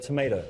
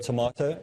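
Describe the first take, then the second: First: "tomato" as to-MAY-doe; long A variant. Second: "tomato" as to-MAH-toe; broad A variant. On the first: Teacher advising on alternating word forms, "tomato" said to-MAY-doe. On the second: Teacher advising on alternating word forms, "tomato" said to-MAH-toe. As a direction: give "tomato" an open "ah" in the middle. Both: Shown as a demonstration. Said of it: "sometimes use the word tomato".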